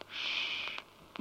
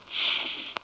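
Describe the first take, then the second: First: "Sch-" with lips pushed forward, rounded and hissed. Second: "Sch-" with lips pulled back, flat and thin hiss; spread-lip sch. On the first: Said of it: "Bei S C H werden die Lippen vorgestülpt". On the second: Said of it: "nicht mit zurückgenommenen Lippen". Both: Shown as a demonstration.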